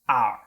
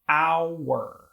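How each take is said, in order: First: The word is said with one syllable. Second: The word is said with two syllables. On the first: The speaker calls it wrong. "they pronounce these words without the true two syllables" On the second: The speaker calls it right. "it's really two syllables"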